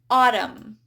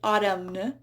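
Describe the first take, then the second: First: The final N sound is silent. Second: The final N sound is pronounced. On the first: The speaker calls it right. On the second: The speaker calls it wrong.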